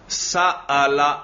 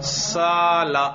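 First: A glottal stop comes before the long a vowel. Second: The long a vowel follows without a glottal stop. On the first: "میں حمزہ پڑھ رہا ہوں, ابھی تسہیل نہیں کر رہا" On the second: "اور الف ذرا ادا کرو"

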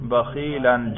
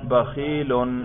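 First: The word ends in the sound -an. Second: The word ends in the sound -un. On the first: The word is in the accusative case. "نصب پہ تلفظ کریں" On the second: The word is in the nominative case. "اس کے رفع پر ہم تلفظ کر رہے ہیں"

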